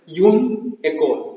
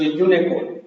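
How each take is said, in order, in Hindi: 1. दोनों शब्द अलग-अलग बोले जाते हैं। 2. दोनों शब्द एक साथ जोड़कर बोले जाते हैं।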